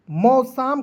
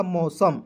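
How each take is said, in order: First: मौसम with a long aa, mau-saam; wrong pronunciation. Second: मौसम with a short second vowel, mau-sum; correct pronunciation. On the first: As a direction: stretch the second vowel of मौसम into saam. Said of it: "मौसम कोई शब्द नहीं होता है". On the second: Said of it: "इसलिए मैंने यहाँ पे लिखा". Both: Shown as a demonstration.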